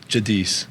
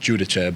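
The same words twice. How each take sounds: First: The name is pronounced the English way. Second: The name is pronounced the Italian way. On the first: "just for simpler terms" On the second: "when people ask the Italian way"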